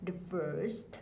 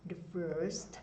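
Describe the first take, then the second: No difference in how they are said.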